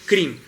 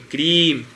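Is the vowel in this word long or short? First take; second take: short; long. First: The vowel is said short. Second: The vowel is held long. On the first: The speaker calls it wrong. "não é crim" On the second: The speaker calls it right. "quando você vê esse risquinho em cima, ... é crime"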